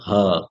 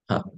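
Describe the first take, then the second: First: The breathy 'h' sound is strong and forceful. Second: The breathy 'h' sound is soft and light. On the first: The speaker calls it wrong. "It's not her" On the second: The speaker calls it right. "It is just her, soft"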